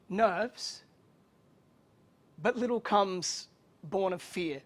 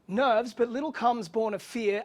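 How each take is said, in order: First: It is read with added pauses. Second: It is read in one breath.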